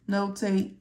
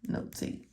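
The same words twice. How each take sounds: First: Said in the usual way. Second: Whispers notate, fading the repeat to breath; whispered. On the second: Shown as a demonstration. Teacher repeating a step, whispering notate. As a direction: drop to a whisper on the last notate.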